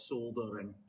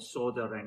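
First: It is said the British way, with the L. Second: It is said the American way, without the L.

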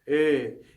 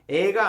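First: The vowel is slightly closed and rounded. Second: The vowel is open and relaxed. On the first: The speaker calls it right. "살짝 닫힌 애거든요" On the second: The speaker calls it wrong. "에가 아닌"

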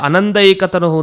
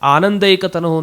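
First: The first vowel is short. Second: The first vowel is long. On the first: The reading intended in this passage. The speaker calls it right. "ಆದರೆ ಇಲ್ಲಿ ಅನಂದೈಕತನುಹು ಅಂತ ಮಾಡ್ಕೊಳ್ಬೇಕು" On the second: The usual reading of the compound. The speaker calls it wrong. "ಅಂತ ನಾವು ಹೇಳಿಬಿಡ್ತೀವಿ"

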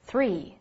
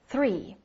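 First: The first sound has the tongue between the teeth. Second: The first sound has the tongue between the teeth.

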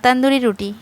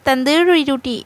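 First: It is pronounced in a plain, ordinary way. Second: It is pronounced in an overly fancy, affected way. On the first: The speaker calls it right. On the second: The speaker calls it wrong.

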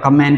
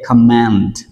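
First: The final consonant is dropped at the end. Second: The final consonant is clearly sounded at the end. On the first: The speaker calls it wrong. "chúng ta hay đọc là command" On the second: The speaker calls it right. "chúng ta nên đọc cái âm cuối là T"

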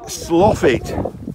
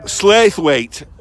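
First: The name is said as 'Sloffit'. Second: The name is said the way it is spelled. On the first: This is how local people say it. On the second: This is how outsiders say it.

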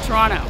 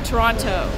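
First: It is said in the local pronunciation. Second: It is said in a non-local pronunciation. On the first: The speaker calls it right. "How do they say it?" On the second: The speaker calls it wrong. "I say Toronto"

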